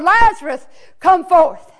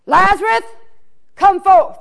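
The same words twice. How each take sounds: First: Loud commanding call; a ringing summons at the tomb; hollered call. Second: Loud commanding call, voice pitched up; a ringing summons to a dead friend; hollered call. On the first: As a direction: call him out of the tomb with authority. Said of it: "he hollered". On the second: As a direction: call him out of the tomb. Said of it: "he hollers out". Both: Acted.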